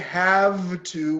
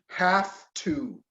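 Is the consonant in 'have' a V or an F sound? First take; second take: V; F. First: The word have ends with a V sound. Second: The word have ends with an F sound. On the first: The speaker calls it wrong. "we don't say have to" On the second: The speaker calls it right. "This turns into F"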